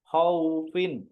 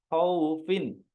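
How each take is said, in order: Both takes have the same delivery.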